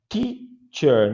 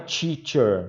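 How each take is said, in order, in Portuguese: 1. A palavra começa com um som de t limpo. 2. A palavra começa com um som parecido com 'ch'. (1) "Cuidado com a pronúncia teacher" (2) "não é teacher"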